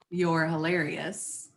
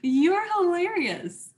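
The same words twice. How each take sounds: First: It is said in a sarcastic, mocking tone. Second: It is said in a genuine, amused tone. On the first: The speaker does not find the person funny. "we all know I'm being sarcastic there" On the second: The speaker really finds the person funny. "that's a real reaction"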